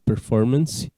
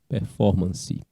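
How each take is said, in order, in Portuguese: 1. A palavra é pronunciada do jeito inglês. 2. A palavra é pronunciada do jeito português. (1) "vai para o inglês como performance" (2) "a gente só muda um pouco a pronúncia"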